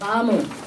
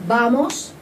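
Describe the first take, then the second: First: The final s sound is dropped. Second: The final s sound is clearly pronounced. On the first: The speaker calls it right. "Also vamos" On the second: The speaker calls it wrong. "die S musst ihr von überall wegstreichen. Das heißt, wir sagen nicht"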